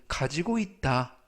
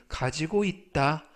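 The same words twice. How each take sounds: The two takes are said the same way.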